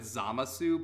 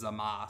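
First: The name ends with a final vowel sound. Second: The name ends without a final vowel sound. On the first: "the dub went with Zamasu" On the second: "some Japanese dialects sometimes leave out the vowel that's at the end of a word"

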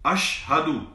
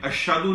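First: The h sound is pronounced clearly. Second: The h sound is swallowed and unclear. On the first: The speaker calls it right. "हा को क्लियर नहीं करते" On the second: The speaker calls it wrong. "लोग खा जाते हैं हा को"

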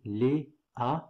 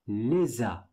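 First: The two words are said apart, without the S. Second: The S sound links into the following vowel. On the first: The speaker calls it wrong. "You don't say les a" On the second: The speaker calls it right. "You have to say les a. ... you have to make this connection"

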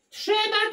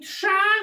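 First: The word is said in full, two syllables. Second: The word is shortened to one syllable. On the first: The speaker calls it wrong. "Nie mówi się" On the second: The speaker calls it right. "tylko się mówi trza"

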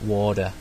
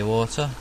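First: It is said in an American accent. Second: It is said in a non-American accent.

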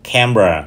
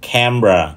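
First: The word is said with two syllables. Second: The same.

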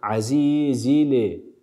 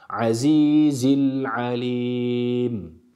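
First: A short vowel is added after the l sound. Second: The l sound is held with no added vowel. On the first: The speaker calls it wrong. "dilimizi bırakırsak ne oluyor? Hareke ortaya çıkıyor" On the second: The speaker calls it right. "Dilimizi bırakmıyoruz"

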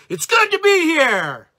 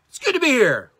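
First: It is said with full, heartfelt energy. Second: It is said plainly, without much feeling.

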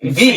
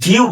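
First: The letter ends cleanly on the 'ee' vowel. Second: The letter ends with an added 'oo' glide. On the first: The speaker calls it right. "এটা ঠিক ভি" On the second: The speaker calls it wrong. "আমরা অনেকে ভিউ বলি, ভিউ না"

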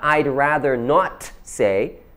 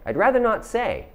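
First: The T in 'not' is clearly pronounced. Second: The T in 'not' is soft, almost silent. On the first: The speaker calls it wrong. "It's not" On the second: The speaker calls it right. "That T is really soft, almost silent"

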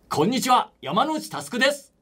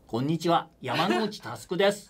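First: An energetic, loud, sporty young voice. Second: A casual voice of the student's peer. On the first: The speaker is a sporty person. "이렇게 하면은 약간 스포츠맨" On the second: The speaker is the student's friend. "내 친구가 나오면"

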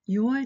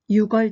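First: No k sound closes the first syllable. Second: A k sound closes the first syllable. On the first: The speaker calls it right. "でしたよね" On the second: The speaker calls it wrong. "ではなくて"

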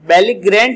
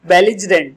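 First: The middle is said with a hard 'gr' sound. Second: The middle is said with a soft 'jer' sound. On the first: The speaker calls it wrong. "बेलिग्रेंट नहीं बोलेंगे" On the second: The speaker calls it right. "बल्कि आप क्या बोलेंगे? बेलिजरेंट इसका pronunciation होगा"

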